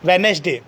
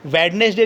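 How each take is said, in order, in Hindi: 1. पहली d ध्वनि silent रहती है। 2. पहली d ध्वनि साफ़ बोली जाती है। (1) "डी साइलेंट है" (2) "नहीं होता है"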